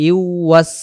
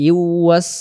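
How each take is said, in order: No difference in how they are said.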